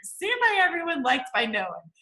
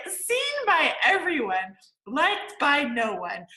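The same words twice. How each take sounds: First: Deadpan the punchline; wry phrase. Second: Seen stretched high, liked by no one dropped slow; wry stressed phrase. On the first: Teacher quoting what a group post should say, high then dropped. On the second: Teacher joking about unseen group posts, slow and wry. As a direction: land it dry and slow. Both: Shown as a demonstration. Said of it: "That's what it should say".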